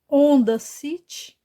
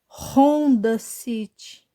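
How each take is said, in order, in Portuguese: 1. O h inicial é mudo. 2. O h inicial é pronunciado como um r gutural. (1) "Não" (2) "Porque essa letra tem som de R"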